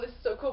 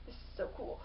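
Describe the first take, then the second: First: Said in the usual way. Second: Hushed, breathless wonder; awed whisper. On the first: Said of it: "probably not going". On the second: Retold or imitated. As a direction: whisper it in quiet amazement. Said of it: "the one looking around going".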